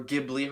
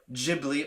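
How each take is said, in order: First: Ghibli with a hard G, as GIB-lee. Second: Ghibli with a soft G, as JIB-lee. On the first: Host offering the other way to say the studio's name, Ghibli with a hard G. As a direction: say Ghibli starting like the G in give. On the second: Host offering one way to say the studio's name, Ghibli with a soft G. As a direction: say Ghibli starting with a J sound. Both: Shown as a demonstration. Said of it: "however the heck you wanna say it".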